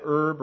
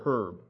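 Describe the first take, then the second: First: "herb" with the h dropped; "herb" starting straight on the vowel; silent h. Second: "herb" with the h pronounced; "herb" said as "hurb", h and all; sounded h. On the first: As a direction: say "herb" as "erb". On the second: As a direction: breathe an audible h at the start of "herb". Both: Shown as a demonstration. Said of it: "did you say that herb or herb".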